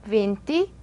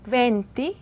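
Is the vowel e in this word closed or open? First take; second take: closed; open. First: The e vowel is closed. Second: The e vowel is open.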